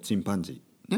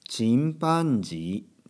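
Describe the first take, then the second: First: The word is said quickly. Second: The word is said at a normal speed. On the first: "これを早く言うと" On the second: "こういうふうに言うんですね"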